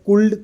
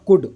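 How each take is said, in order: First: The word is said with an audible l sound. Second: The word is said with no l sound. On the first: The speaker calls it wrong. "अब अपन ने कुल्ड तो बोला नहीं है" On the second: The speaker calls it right. "कुड बोलते हैं ना"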